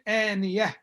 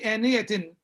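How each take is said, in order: First: The word ends without any n sound. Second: The word ends with an audible n sound. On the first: The speaker calls it right. "we'll say آنية" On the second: The speaker calls it wrong. "we will not say آنية"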